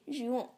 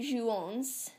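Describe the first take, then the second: First: The final S is silent. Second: The final S is sounded aloud. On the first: The speaker calls it right. "the S stays silent, but you do say jouons" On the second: The speaker calls it wrong. "you don't say jouons"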